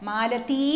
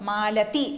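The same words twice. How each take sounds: The two takes are said the same way.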